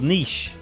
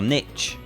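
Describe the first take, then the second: First: It is pronounced the British way, like 'neesh'. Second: It is pronounced the American way, like 'nitch'.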